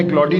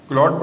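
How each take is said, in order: First: क्लॉडी said with the final e sounded as "ee"; wrong pronunciation. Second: क्लॉड said as one syllable with a silent e; right pronunciation. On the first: Teacher showing students the wrong way to say Claude, क्लॉडी sounded as klaw-dee. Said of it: "आपने क्लॉडी नहीं पढ़ना". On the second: Teacher correcting students, क्लॉड said as one syllable, klawd. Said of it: "ई silent है". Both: Shown as a demonstration.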